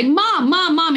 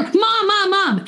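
First: Put-on higher-pitched child calling for mom. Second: Put-on much higher, insistent child's call to mom; child calling more insistently. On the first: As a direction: imitate a kid calling mom to get her attention. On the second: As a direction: imitate a kid calling mom again, more urgently when ignored. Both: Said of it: "getting louder and louder".

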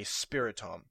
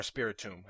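First: Spiritomb ending in "tom"; alternative pronunciation. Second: Spiritomb ending in "toom"; alternative pronunciation. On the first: Podcaster naming a Pokemon for listeners, Spiritomb as "SPIRI-tom". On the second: Podcaster offering another way to say it, Spiritomb as "SPIRI-toom". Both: Shown as a demonstration. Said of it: "however you would pronounce it".

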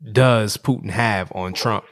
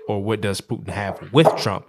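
First: Slow question with weight on "on Trump"; stress on "on". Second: "with" picked out as the contrast; stress on "with". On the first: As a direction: set "on" against the alternative. Contrasts two possible questions. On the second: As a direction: lean on "with" as the alternative. Second of two contrasted questions. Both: Real, not acted.

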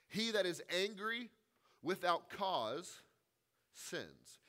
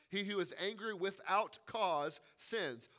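First: Each phrase set apart by long pauses, with "without" drawn out slowly; slow quoted proverb. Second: Said in the usual way. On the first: Shown as a demonstration. Preacher quoting a saying to his congregation, slow and pausing. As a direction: read the proverb solemnly, pausing after "angry" and "cause".

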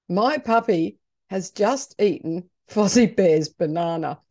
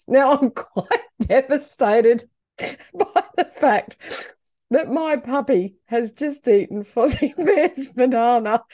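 First: Said in the usual way. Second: Laughing. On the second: Real, not acted. Owner laughing at the puppy eating the banana, giggling. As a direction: giggle while telling it.

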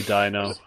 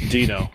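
First: "Dino" said as DIE-no, long I; "Dino" with the vowel of "eye"; wrong pronunciation. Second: "Dino" said as DEE-no, long E; "Dino" with the vowel of "see"; corrected pronunciation. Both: Shown as a demonstration. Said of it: "Dino, rather".

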